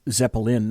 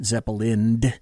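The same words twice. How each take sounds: First: It ends without an added d sound. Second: It ends with an added d sound. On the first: The speaker calls it right. "No D on the end" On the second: The speaker calls it wrong. "not Zeppelin"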